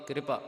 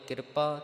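First: ਕਿਰਪਾ as "kri-pa", r straight after the k; subjoined r reading. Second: ਕਿਰਪਾ as "kir-pa", r after the i; full r reading. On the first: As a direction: open ਕਿਰਪਾ on a kr cluster. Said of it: "ਇੱਥੇ ਪੈਰ ਦੇ ਵਿੱਚ ਰਾਰਾ ਹੈ". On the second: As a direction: say ਕਿਰਪਾ with r closing the first syllable. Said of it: "ਦੋ ਪਾਠ ਗੁਰਬਾਣੀ ਦੇ ਅੰਦਰ ਆਉਂਦੇ ਹਨ". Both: Shown as a demonstration.

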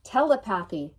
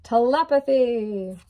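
First: "Telepathy" stressed on TEL and PATH, as tele-PATH-y; wrong emphasis. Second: "Telepathy" drawn out slow and loud, te-LEP-athy; stress on LEP. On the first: Card reader joking over a word, wrong emphasis. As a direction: misplace the stress in "Telepathy", saying TELL-uh-PATH-ee. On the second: Card reader correcting herself after joking, stress on LEP. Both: Shown as a demonstration. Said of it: "Put the wrong emphasis on the wrong syllable".

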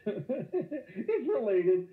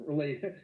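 First: Drawn out slowly while laughing; laughing mock correction. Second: Said in the usual way. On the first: Shown as a demonstration. Teacher mocking a student's wrong answer, slow and laughing. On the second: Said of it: "Inversely, thank you".

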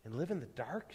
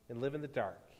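First: "dark" lifted in a soft rising question; hushed question ending upward on "dark"; asking. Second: "dark" falling low as a soft statement; low, final fall on "dark"; grave reply. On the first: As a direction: ask quietly, pitch climbing on "dark". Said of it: "she asked". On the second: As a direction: answer quietly, pitch dropping on "dark". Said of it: "he replied". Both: A narrator's reading.

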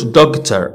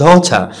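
First: دكتور as "dog-ter"; sounded GH. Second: Daughter as "daw-ta", no G; silent GH. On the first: Teacher showing the mistake to avoid, sounded GH. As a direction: wrongly sound a hard G in دكتور. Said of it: "ما كنقولوش". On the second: Teacher giving the well-known word, silent GH. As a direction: drop GH and final R in daughter. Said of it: "جي اتش ما كتنطقش". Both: Shown as a demonstration.

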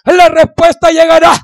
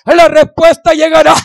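No difference in how they are said.

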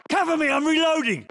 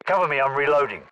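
First: Shouted callout. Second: Said in the usual way. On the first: Acted. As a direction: yell it over the noise. Shouted take.

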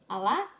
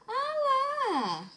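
First: Said in the usual way. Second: Much higher, a tiny squeal; squeaky baby voice. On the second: Pretend. Mother voicing her baby in a high squeak.

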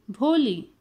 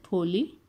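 First: Said in the usual way. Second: Soft, lower, gentle call; soft and soothing. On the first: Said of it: "the teacher's voice so soft and soothing". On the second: A narrator's reading. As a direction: call her name soothingly. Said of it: "The teacher's voice was so soft and soothing".

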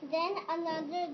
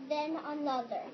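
The two takes are said the same way.

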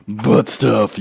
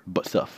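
First: Said in the usual way. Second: Whispered. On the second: Shown as a demonstration.

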